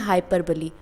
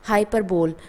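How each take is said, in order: First: The word ends with a 'blee' sound. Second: The word ends with a 'bowl' sound. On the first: The speaker calls it right. "इसको हम बोलते हैं हाइपरबली" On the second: The speaker calls it wrong. "कुछ लोग pronunciation करते हैं हाइपरबोल, जो कि रॉन्ग है"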